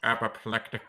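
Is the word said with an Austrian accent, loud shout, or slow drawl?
slow drawl. The word is drawn out slowly in a deep voice. "And how would Alan Rickman say apoplectic?"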